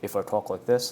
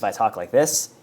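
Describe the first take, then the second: First: It is said quietly. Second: It is said loudly.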